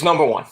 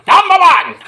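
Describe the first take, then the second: First: Said in the usual way. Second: High, loud hammed-up roar; champion's shout. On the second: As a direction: bellow it like a wrestling boast. Cheering own cat as champion.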